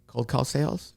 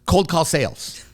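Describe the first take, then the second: First: It is said hesitantly, sounding unhappy and unsure. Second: It is said in a plain, matter-of-fact way. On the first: "He went" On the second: "But he didn't say it like that"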